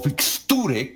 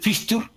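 First: The word ends with a final vowel sound. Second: The word ends without a final vowel sound.

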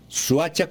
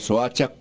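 First: The vowel after the S sounds like u. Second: The vowel after the S sounds like o. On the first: "Suacha con U" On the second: "Soacha con O"

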